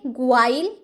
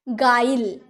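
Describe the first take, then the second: First: A w sound follows the g. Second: No w sound follows the g. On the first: The speaker calls it wrong. "ग्वाइल तो नहीं बोलेंगे" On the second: The speaker calls it right. "ये हो गया गाइल"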